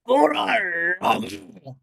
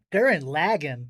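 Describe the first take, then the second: First: Dramatic, drawn-out anime shout; imitating an anime hero's yell; anime character's cry. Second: Said in the usual way. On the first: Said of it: "he goes". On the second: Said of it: "if you watch the dub".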